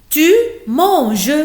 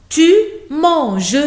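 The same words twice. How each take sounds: The two takes are said the same way.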